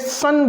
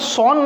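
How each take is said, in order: First: The vowel is a short 'uh' sound. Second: The vowel is an open 'aw' sound. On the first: The speaker calls it right. "हम इसे सन बोलेंगे" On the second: The speaker calls it wrong. "हम इसको सॉन नहीं बोलेंगे"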